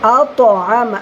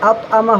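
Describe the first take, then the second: First: The 't' sound is bounced, echoing twice. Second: The 't' sound is plain with no bounce. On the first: The speaker calls it right. "আওয়াজটা দুইবার আসবে" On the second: The speaker calls it wrong. "আত আমা হবে না"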